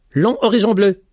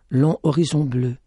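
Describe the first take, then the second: First: Bold, loud and high call; striking exclamation. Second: Said in the usual way. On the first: A narrator's reading. Young man calls out boldly to the blind lady, striking. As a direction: fling the words out to catch her. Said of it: "d'un air saisissant". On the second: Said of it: "d'un ton ferme".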